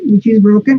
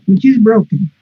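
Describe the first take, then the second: First: The voice rises at the end, like a question. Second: The voice falls at the end, like a statement. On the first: It sounds like a question. The speaker calls it wrong. "estás preguntando" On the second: It sounds like a statement. The speaker calls it right. "Para abajo, por favor"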